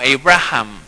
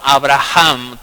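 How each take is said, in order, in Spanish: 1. El nombre se dice con una pronunciación inglesa. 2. El nombre se dice con una pronunciación hebrea. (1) "se pronuncia en inglés algo muy similar como" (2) "pronunciado en hebreo era como"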